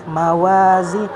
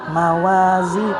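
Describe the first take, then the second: No difference in how they are said.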